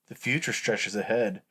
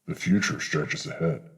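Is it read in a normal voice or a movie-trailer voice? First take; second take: normal voice; trailer voice. First: It is read in his normal reading voice. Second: It is read in a dramatic movie-trailer voice.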